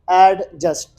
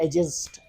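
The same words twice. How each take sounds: First: एडजस्ट said with the D fully sounded; एडजस्ट with an audible D before the J; wrong pronunciation. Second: एडजस्ट with the D kept silent; एडजस्ट said as "ajust", no D; correct pronunciation. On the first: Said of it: "तो ये बिल्कुल ऐसा नहीं". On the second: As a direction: drop the D in एडजस्ट, start on the J. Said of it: "आपने कहना एडजस्ट". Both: Shown as a demonstration.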